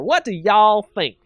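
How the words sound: It is said in a Southern accent.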